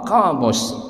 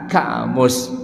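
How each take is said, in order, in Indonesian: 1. Dimulai dengan bunyi q belakang yang dalam. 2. Dimulai dengan bunyi k biasa. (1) "bahasa Arabnya qa, qamus" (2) "Orang Indonesia bilang apa? Ka, kamus"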